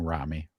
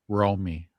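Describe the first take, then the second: First: The first vowel is short, not a long O. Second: The first vowel is a long O sound. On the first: The speaker calls it wrong. "I'm saying Rami" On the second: The speaker calls it right. "Long O sound"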